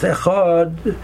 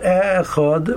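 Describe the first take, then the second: First: The stress is on the last syllable. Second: The stress is on the first syllable. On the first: The speaker calls it right. "The correct way to pronounce it is on the last, is to put the stress on the last syllable" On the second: The speaker calls it wrong. "So it's not Echad"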